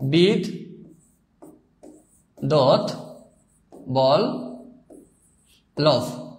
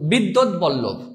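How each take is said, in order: First: বিদ্যুৎ Vallabh very slowly, broken into bid, dot, bol, lobh; drawn-out syllables with long pauses in বিদ্যুৎ Vallabh. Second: Said in the usual way. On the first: Shown as a demonstration. Teacher demonstrating pronunciation to students, বিদ্যুৎ Vallabh split into four slow syllables. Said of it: "অর্থাৎ". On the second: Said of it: "উচ্চারণ করলে হয়".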